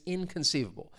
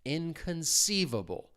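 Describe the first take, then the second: First: The word is said quickly and naturally. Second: The word is said slowly and carefully. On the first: "if I say it even faster" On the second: "I'm saying it slowly and emphasizing it a little bit"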